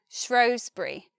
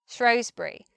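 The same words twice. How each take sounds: First: The first vowel is an oh sound. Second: The same.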